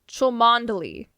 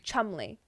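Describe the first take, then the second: First: The name is said with all four syllables. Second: The name is said as two short syllables. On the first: This is how the spelling suggests it is read. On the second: This is how the name is actually pronounced.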